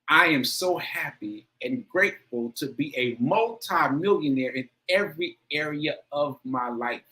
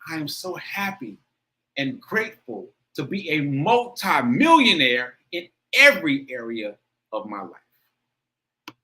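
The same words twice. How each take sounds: First: It is read plainly, with little feeling. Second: It is said with strong, intense feeling.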